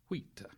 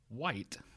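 First: The vowel is a long high 'ee'. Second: The vowel is a gliding diphthong. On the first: This is how it was said centuries ago. "In Middle English, it would have been wheat" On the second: This is how it is said today. "in modern English, that's a diphthong"

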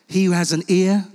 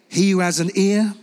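The two takes are said the same way.

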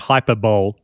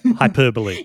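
First: The word ends with a 'bowl' sound. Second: The word ends with a 'bolee' sound. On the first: The speaker calls it wrong. "it's not pronounced" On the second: The speaker calls it right. "the right way to pronounce that"

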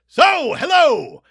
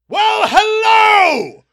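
First: It is said louder than normal. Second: It is said very loudly, nearly yelled.

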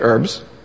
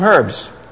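First: The word is said in an American accent. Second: The word is said in a non-American accent.

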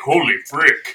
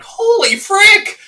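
First: It is said in a deep voice. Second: It is said in a higher voice.

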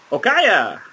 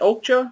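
First: The name is said as Okaya. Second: The name is said as Okja. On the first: The speaker calls it right. "probably the proper pronunciation is, if you go by the little girl, she says Okaya" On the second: The speaker calls it wrong. "I pronounce it Okja"

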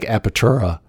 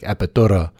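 First: The r sounds are English-style r sounds. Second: The r sounds are quick taps, almost like d. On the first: "It looks like Apertura" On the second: "like the R's are almost like D's"

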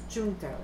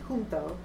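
First: The word begins with a J sound. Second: The word begins with an H sound. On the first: "the British pronunciation is junto" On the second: "you would pronounce the J as an H in Spanish"

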